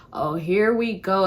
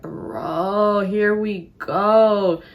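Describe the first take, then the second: First: Slow, mildly fed-up sigh of words; slightly drawn-out, resigned reaction; mild weariness. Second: Very drawn-out, fed-up groan of words; exasperated. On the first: First weary reaction to him. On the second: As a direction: stretch it out in exasperation. Fed up as questions pile up. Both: Retold or imitated.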